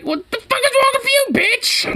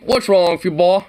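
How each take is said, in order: First: A much higher shrieking parody voice; shrieking mock cop. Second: Said in the usual way. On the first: Viewer mocks the officer in a squealing high voice.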